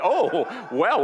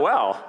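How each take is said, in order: First: Laughing, rising high. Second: Said in the usual way. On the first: Real, not acted. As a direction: laugh through the words. Laughs at interruption.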